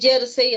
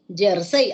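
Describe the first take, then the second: First: The stress is on the first syllable. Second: The stress is on the second syllable. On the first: "así como yo lo pronuncio, es una palabra grave" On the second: "Aquí me sale como aguda"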